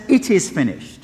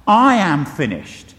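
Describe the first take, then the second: First: Firm, settled declaration leaning on It is; triumphant statement. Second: Slow, louder, self-pitying wail with weight on I am; a defeated man giving up, spoken slowly and louder; mock cry of surrender. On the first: Retold or imitated. Preacher voices Jesus's final word as calm triumph. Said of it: "No, he says". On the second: Preacher mimics a defeated last cry, slow and self-pitying. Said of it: "last desperate self-pitying cry of surrender".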